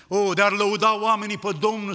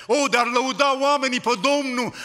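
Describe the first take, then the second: First: Said in the usual way. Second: Higher and louder, crying out the verse; a preacher's raised call to praise; exhortation. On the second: Real, not acted. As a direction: lift the voice and proclaim it to the church.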